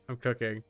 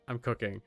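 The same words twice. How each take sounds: The two takes are said the same way.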